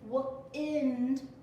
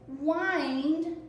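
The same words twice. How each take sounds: First: The vowel is short. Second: The vowel is long. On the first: The moving air that blows. "wind with a short vowel sound" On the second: Turning or coiling something around. "this word is wind with a long vowel sound"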